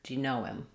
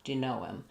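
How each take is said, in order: Both takes have the same delivery.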